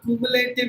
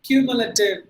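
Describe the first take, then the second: First: The A before -tive is a long sound. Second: The A before -tive is a short ah. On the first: The speaker calls it wrong. "not cumulative இல்ல" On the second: The speaker calls it right. "A as in Amma, like this"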